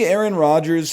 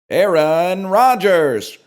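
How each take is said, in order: First: It is said in his normal speaking voice. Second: It is said in a booming announcer voice.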